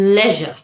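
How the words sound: It is said the British way, like 'leh-zher'. "British অ্যাকসেন্টটা follow করে করেন আপনি তাহলে লেজার এভাবে বলবেন"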